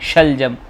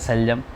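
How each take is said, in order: First: The word begins with an 'sh' sound. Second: The word begins with an 's' sound. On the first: The speaker calls it right. "जैसे शीन शलजम" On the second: The speaker calls it wrong. "बहुत से लोग कहते हैं सलजम, ये बड़ा अजीब सा लगता है"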